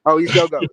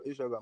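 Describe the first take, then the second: First: Sudden loud realization; surprised. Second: Soft, laughing repeat. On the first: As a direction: blurt it out, caught off guard. Realizes both unmuted, exclaims. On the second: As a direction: giggle through it, embarrassed. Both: Real, not acted.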